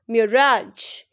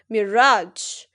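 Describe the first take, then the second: No difference in how they are said.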